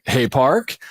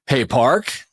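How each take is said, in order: First: "Hey, Park" again in a light, sing-song call; trigger phrase "Hey, Park". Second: "Hey, Park" in a light, sing-song call; trigger phrase "Hey, Park". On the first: Shown as a demonstration. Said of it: "with that type". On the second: Retold or imitated. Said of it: "like that, like, with that type".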